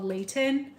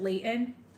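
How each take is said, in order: First: The middle T is clearly pronounced. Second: The middle T is dropped. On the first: "we have a city here called Layton" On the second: "you pronounce it Layton"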